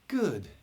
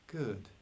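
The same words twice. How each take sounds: First: It is said higher, with more energy. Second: It is said lower, with less energy.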